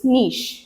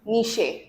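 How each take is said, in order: First: The word ends on the sh consonant. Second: The word ends with an extra vowel sound. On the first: The speaker calls it right. "The correct pronunciation is नीश, ई silent है" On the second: The speaker calls it wrong. "कोई कोई लोग इसको निशे भी बोलते हैं"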